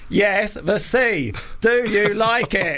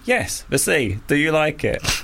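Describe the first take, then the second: First: It is said in a frustrated, exasperated tone. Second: It is said in a calm, patient tone.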